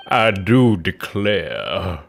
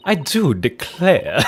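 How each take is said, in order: First: "I do declare" very slow and low, in a thick Southern drawl; deep, slow Southern "I do declare"; heavy southern drawl. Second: A hint of a Southern drawl on "I do declare"; slow, lightly Southern "I do declare"; southern belle accent. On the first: Acted. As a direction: stretch out "I do declare" like an old Southern gent. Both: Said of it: "she has, like, a southern accent now".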